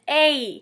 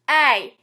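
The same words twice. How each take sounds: First: It ends with a clear glide toward an ee sound. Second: It nearly drops the ee glide, ending with a slight i sound. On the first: "The Midwestern accent pronounces A with the E sound at the end" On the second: "In the South, A is pronounced"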